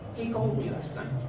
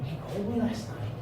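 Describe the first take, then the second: First: It sounds like a plain, neutral statement. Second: It sounds surprised. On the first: It simply reports a fact. "I can say it as a statement of fact" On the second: The speaker did not expect the news. "as if I'm surprised"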